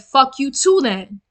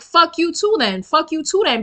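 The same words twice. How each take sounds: First: Said in the usual way. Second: Mock yell, pitched up; retold yelling. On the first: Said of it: "I turned around and I said". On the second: Retells cursing back at him, high mock yell. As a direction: imitate your own yelling without full volume, higher voice. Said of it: "And I start yelling it".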